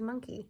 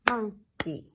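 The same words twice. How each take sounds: First: Said in the usual way. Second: "Monkey" broken in two, mon... key; two firm, separated beats on "Monkey"; clapped-out syllables. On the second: Shown as a demonstration. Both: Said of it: "Two syllables for monkey".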